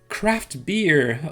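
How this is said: It is said with English sounds and clusters. The speaker calls it wrong. "Ne dites pas craft beer, onegai shimasu. Non, là, on ne va pas vous comprendre"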